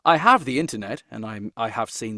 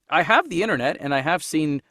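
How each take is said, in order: First: It is said in a put-on British accent. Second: It is said in the speaker's ordinary accent.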